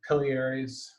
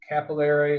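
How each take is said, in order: First: The word is said in a British way. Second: The word is said in an American way.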